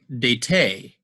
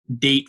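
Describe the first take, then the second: First: An extra vowel sound is heard after the T. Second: No vowel sound follows the final T. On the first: The speaker calls it wrong. "We don't say dete" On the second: The speaker calls it right. "The E is silent"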